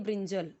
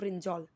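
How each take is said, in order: First: The last syllable has a short 'uh' vowel. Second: The last syllable has a rounded 'aw' vowel. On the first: The speaker calls it wrong. "बहुत सारे लोग पढ़ेंगे" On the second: The speaker calls it right. "कैसे आपको पढ़ना है"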